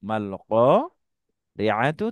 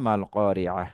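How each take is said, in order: First: The last word ends with a 't' sound. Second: The last word ends with an 'h' sound. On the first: The reading continues without stopping. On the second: The reader stops on this word.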